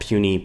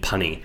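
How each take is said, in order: First: The first vowel is a long 'you' sound. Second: The first vowel is a short 'uh' sound. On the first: The speaker calls it right. "I used to mispronounce puny" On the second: The speaker calls it wrong. "I used to call puny punny"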